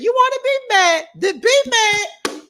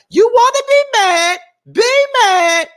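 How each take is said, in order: First: Imitating Keke again. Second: High, loud mock Keke line; imitating Keke. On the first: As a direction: drag it out, sassy and high. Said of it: "But she said". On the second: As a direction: squeal it like a sassy reality star. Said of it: "she was like".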